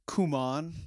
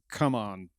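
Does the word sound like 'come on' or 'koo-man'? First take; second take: koo-man; come on. First: The name is said as 'koo-man'. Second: The name is said as 'come on'. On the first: This is how the name is meant to be said. The speaker calls it right. "I understand it's Kuman" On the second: This is how it sounds when read quickly. The speaker calls it wrong. "if you're reading it fast, it's come on"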